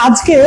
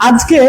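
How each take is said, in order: Both takes have the same delivery.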